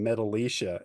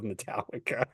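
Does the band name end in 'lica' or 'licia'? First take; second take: licia; lica. First: The name ends with a 'leesha' sound. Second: The name ends with a 'lika' sound. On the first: The speaker calls it wrong. "They weren't pronouncing it correctly" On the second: The speaker calls it right. "you mean Metallica?"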